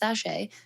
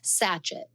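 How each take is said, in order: First: The word ends with a 'shay' sound. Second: The word ends with a 'chet' sound. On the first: The speaker calls it right. "it is actually pronounced sachet" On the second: The speaker calls it wrong. "it looks like the word sachet"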